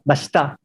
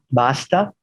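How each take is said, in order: First: The stress is on the first syllable. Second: The stress is on the last syllable. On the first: "se convierte en palabra llana, en filipino" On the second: "de aguda"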